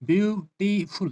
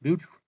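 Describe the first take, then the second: First: Beautiful drawn out slowly as beau, ti, ful; syllable by syllable. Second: Said in the usual way. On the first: Shown as a demonstration. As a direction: break beautiful into three separate, higher-pitched beats. (beautiful को धीरे, तीन हिस्सों में तोड़कर बोलें) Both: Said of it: "that is three syllable".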